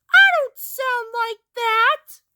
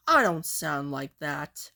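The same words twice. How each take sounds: First: Very high, loud squeal; high-pitched shouted denial; squealed protest. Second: Dropped low, fairly quiet; deep reply after a squeal; low-voiced denial. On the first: Acted. Acted squabble, protest peaks. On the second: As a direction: deny it in a low, subdued voice. Acted squabble, the voice drops after outburst.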